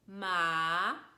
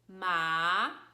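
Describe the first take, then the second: First: The pitch rises like a question. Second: The same.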